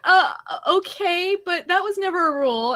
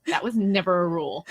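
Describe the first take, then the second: First: Put-on high-pitched child objecting; protesting kid. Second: Put-on lightly snarky retort of a child; snarky seven-year-old. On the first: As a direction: imitate a kid arguing back, pitched up. Child protests mom's new rule. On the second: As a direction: talk back with a touch of snark. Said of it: "snarky seven-year-old me goes".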